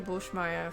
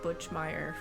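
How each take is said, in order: First: The name is said the German way. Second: The name is said the English way. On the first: "I would say Bushmeyer for German" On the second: "it would be like Butchmeyer for English"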